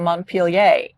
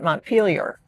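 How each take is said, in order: First: The name is pronounced the French way. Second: The name is pronounced the American way.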